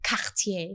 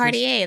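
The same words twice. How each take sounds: First: The name has a French pronunciation. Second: The name has an American English pronunciation. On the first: "If you want it to be French, then it could be" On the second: "That's American"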